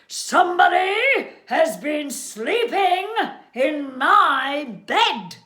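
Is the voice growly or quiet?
growly. The voice is big, deep and growly. "in his great big growly voice"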